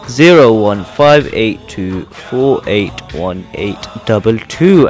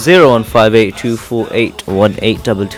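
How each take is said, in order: First: The number is said more slowly. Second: The number is said at normal speed.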